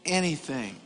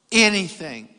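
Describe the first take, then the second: First: "anything" said low and soft; understated. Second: "anything" stretched slowly, at full voice; drawn-out emphasis. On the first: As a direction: drop "anything" down quietly. Repeats key word, first take. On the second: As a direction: lean slowly on every syllable of "anything". Repeats key word for emphasis. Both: Shown as a demonstration.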